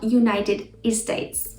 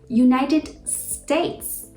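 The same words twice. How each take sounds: First: An extra e sound comes before States. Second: States begins directly with the s sound. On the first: The speaker calls it wrong. "not United States" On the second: The speaker calls it right. "And United States"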